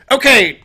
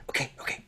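First: High, loud, excited okay; loud ready signal. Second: Whispered, flustered aside; hushed aside. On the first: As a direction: call it out eagerly, high and loud. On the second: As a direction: whisper it hastily to yourself. Dewey mutters off to the side. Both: Acted.

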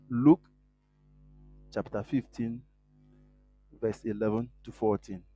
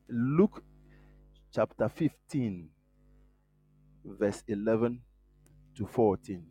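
The two takes are said the same way.

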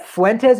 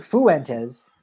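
First: Said in the usual way. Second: Fuentes stretched into foo-EN-tez; three-syllable Fuentes. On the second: Shown as a demonstration. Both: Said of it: "like, a three-syllable thing".

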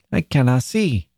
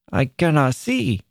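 First: Put-on a mild childish grumble; grumbling. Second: Put-on higher, sulky child's whine; sulky complaint. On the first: Boy at the table in darkness, mildly grumbling. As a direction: grumble from the dark, understated. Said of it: "grumbled the invisible John". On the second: Boy repeating his complaint to mother, sulky. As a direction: complain sulkily, swooping down on "see". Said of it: "complaining sulkily". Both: A narrator's reading.

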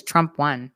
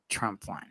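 First: Said in the usual way. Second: Low, much softer, flat two-word verdict; deadpan mic drop. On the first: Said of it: "All I said was". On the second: Retold or imitated. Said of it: "lower my glasses and say".

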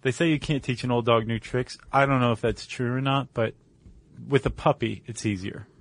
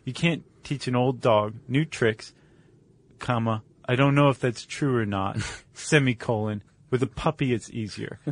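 First: Said in the usual way. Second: "comma" and "semicolon" spoken as words, with a pause before each; reading punctuation aloud. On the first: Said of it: "I think that should be". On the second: Shown as a demonstration. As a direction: recite it as a formal adage, saying "comma" and "semicolon" aloud. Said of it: "That should be the full adage".

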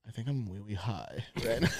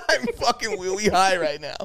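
First: Put-on soft, lower little baby-talk confession; timid three-year-old with R turned to W; imitating frightened toddler. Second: Put-on higher baby talk with R as W; hammed-up three-year-old voice, amused; mock toddler talk. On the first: Scared stoner confesses to his girlfriend, toddler-like. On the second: Repeating his confession to girlfriend, mock toddler talk. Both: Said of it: "talking like I was three".

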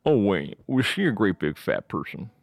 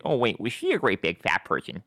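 First: Lightly imitated movie killer, odd voice; Buffalo Bill. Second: Lightly goofy take on the killer's voice; same voice, cartoon version. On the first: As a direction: quote the killer in his weird voice. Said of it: "famous lines in that movie where he goes". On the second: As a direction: echo the killer as a cartoon teenager. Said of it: "like, the same voice".

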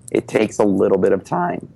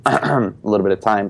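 First: Voice cracking. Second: Said in the usual way. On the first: Real, not acted. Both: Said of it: "Sorry for the voice crack".

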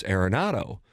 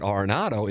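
First: AIR-eh-NAH-do for Arenado; corrected Arenado pronunciation. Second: AR-eh-NAH-do for Arenado; mistaken Arenado pronunciation. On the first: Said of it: "It's Arenado". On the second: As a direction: say Arenado starting with AR as in car. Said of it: "I've been pronouncing it". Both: Retold or imitated.

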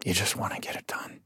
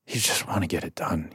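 First: Whispered and much softer, just wanting it over; tired throwaway. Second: Softer, voiced, just wanting it done; flat throwaway. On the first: Retold or imitated. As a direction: mutter it like you want to go to bed. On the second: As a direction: say it like the talk bores you. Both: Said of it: "like you just want, you want this conversation to be over".

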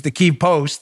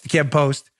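First: "Kyiv" with a long ee; Kyiv as "keev". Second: "Kyiv" with a short, quick vowel. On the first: Host naming a Ukrainian newspaper, Kyiv as "keev". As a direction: say "Kyiv" as one syllable, "keev". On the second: Host repeating the newspaper's name, Kyiv with short i. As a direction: say "Kyiv" short, close to "kiv". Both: Real, not acted. Says the city name two ways.

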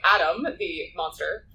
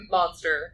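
First: Said in the usual way. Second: Monster with a laugh, in ironic air quotes; a light laugh on monster, mocking the label. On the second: Real, not acted. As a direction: say monster as if it is not the right word. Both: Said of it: "air quotes".

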